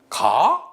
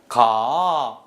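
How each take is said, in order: First: It is said with a questioning tune. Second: It is said invitingly like a proposal. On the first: It asks something. "이렇게 물어보면은 이거는 의문이죠" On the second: It invites someone to go together. "이렇게 얘기하면 청유입니다"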